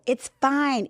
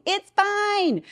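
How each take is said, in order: First: Said in the usual way. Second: Much higher, sing-song reassurance; reassuring. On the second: Real, not acted. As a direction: brush it off brightly.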